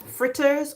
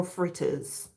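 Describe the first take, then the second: First: "Fritters" in careful standard English, softly; standard pronunciation. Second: "fritters" softly in a Jamaican accent. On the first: Host repeating both ways for viewers, standard pronunciation. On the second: Host repeating the accented version for viewers, Jamaican accent. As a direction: say "fritters" the Caribbean way. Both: Shown as a demonstration. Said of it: "if you wanna say it in an accent".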